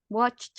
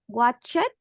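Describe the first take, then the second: First: The word ends in a plain t sound. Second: The ending is an extra syllable, like 'it'. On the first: The speaker calls it right. "the pronunciation at the end is with the t sound" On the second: The speaker calls it wrong. "It's not watch it"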